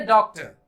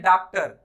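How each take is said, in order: First: डॉक्टर as "dawk-tuh", rounded vowel; correct pronunciation. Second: डॉक्टर as "daaktar", open "aa"; incorrect pronunciation. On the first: Teacher building the word correctly, डॉक्टर as "dawktuh". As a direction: round the "daw" and shorten final r in डॉक्टर. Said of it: "ये है डॉ". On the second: Teacher quoting common mistake, डॉक्टर as "daaktar". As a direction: say डॉक्टर with "daa" and full final r. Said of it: "incorrect pronounce करते हैं". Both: Shown as a demonstration.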